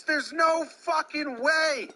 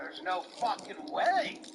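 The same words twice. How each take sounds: First: Loud, high, slowed outraged yell at the umpire; furious shout. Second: Unvoiced whisper of the furious line. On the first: Acted. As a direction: yell it, stretching every word. Mock player rage at umpire. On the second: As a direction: hiss the protest under your breath. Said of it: "says Topper".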